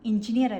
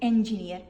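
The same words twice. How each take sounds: First: The first vowel sounds like 'i'. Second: The first vowel sounds like 'e'. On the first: The speaker calls it wrong. "എഞ്ചിനീയർ അല്ല" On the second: The speaker calls it right. "ഇന്റെ പകരം എ ആക്കണം"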